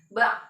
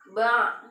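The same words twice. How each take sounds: First: The final ain sound is cut off abruptly. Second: The final ain sound is slightly drawn out. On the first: The speaker calls it wrong. "jangan sampai kita bilangnya atau ngucapnya ba, ... Itu salah" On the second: The speaker calls it right. "seharusnya dia tuh seperti memanjang"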